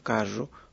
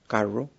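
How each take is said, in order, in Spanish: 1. La rr es un sonido sibilante, con siseo. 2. La rr es un sonido retroflejo, con la lengua curvada hacia atrás. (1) "se da una asibilación" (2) "la R retrofleja"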